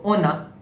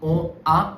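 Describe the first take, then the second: First: The N is carried into the vowel. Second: The N is not carried into the vowel. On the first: The speaker calls it right. "Means you will pronounce N here" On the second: The speaker calls it wrong. "this will not be on a"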